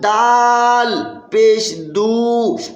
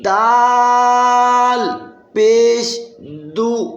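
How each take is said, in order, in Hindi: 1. आख़िरी स्वर को लंबा खींचा जाता है। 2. आख़िरी स्वर को छोटा रखा जाता है। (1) "हरकत को लंबा करके पढ़ना" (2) "इसको लंबा नहीं करना"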